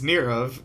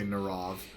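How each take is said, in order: First: The first syllable sounds like 'near'. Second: The first syllable sounds like 'nar'. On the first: The speaker calls it right. "it's the two words near and of" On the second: The speaker calls it wrong. "the default sound everybody makes"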